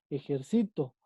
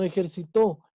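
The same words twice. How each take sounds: First: "ejercito" stressed on CI, lower and falling; stress on penultimate syllable. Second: "ejercitó" with the final TÓ stressed; stress on last syllable. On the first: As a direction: move the stress back to CI in "ejercito". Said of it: "La sílaba tónica está en sí". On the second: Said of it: "Ya no ejercitó". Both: Shown as a demonstration.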